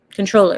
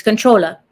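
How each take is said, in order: First: Said in the usual way. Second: "controller" ending in an open "ah", no R; Southern dropped ER. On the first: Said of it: "they pronounce words without E R". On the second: Shown as a demonstration. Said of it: "drop the E R and put an A".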